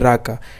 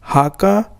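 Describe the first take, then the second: First: The word begins with an r sound. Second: The word begins with an h sound. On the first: This follows the spelling as read outside Portugal. "if you say raka" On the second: This is how people there say it. "but there they say haka"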